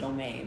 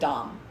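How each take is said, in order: First: The vowel is long, like in 'dome'. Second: The vowel is short, like in 'dom'. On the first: The speaker calls it wrong. "People pronounce it Dome, but that sounds weird to me" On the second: The speaker calls it right. "is pronounced the same"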